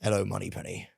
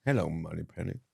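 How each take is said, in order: First: A hint of a suave Bond, quiet and low; Bond impression. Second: Low, soft Bond line out the side of the mouth. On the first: Teasing Pete with a quiet Bond line. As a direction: murmur it like a lightly voiced Bond. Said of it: "sort of like". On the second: Retold or imitated. Copying the Bond impression, talking out the side of mouth. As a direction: mumble it suavely from the corner of the mouth. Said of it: "Why are we talking out the side of our mouth".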